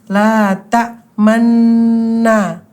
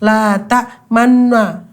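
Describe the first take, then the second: First: The middle is drawn out slightly. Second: It is said directly without drawing out. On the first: The speaker calls it right. "agak ditarik dulu sedikit gitu" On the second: The speaker calls it wrong. "Jadi nggak langsung la ta'manna gitu tidak"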